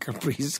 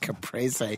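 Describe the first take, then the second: First: The word is pronounced in an anglicized way. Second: The word is pronounced in the Italian way. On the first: The speaker calls it wrong. "instead of saying Caprese" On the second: The speaker calls it right. "It's Caprese. It's Italian"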